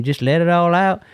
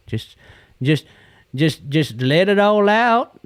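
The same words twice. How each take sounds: First: Quoting Clyde. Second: Slow, high, stretched-out encouragement; slow drawn-out. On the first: Retold or imitated. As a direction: toss off Clyde's old saying. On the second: Real, not acted. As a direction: draw it out slowly, rising at the end. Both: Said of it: "Clyde used to say".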